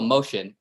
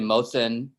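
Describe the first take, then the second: First: The name is said like 'Motion'. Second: The name is said like 'Mosin'. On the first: This is how someone else says the name. The speaker calls it wrong. "Mike calls me Motion" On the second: This is the name as its owner says it. The speaker calls it right. "it's actually Mosin"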